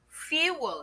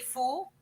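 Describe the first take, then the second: First: A 'y' glide comes before the long vowel. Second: No 'y' glide comes before the long vowel. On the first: The speaker calls it right. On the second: The speaker calls it wrong.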